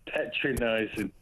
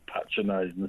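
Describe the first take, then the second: First: "patronising" said slowly as PET-ra-nising; punning pronunciation. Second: Said in the usual way. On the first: Shown as a demonstration. Caller punning on host Petra's name, "patronising" as PET-ra-nising. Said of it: "We should coin that".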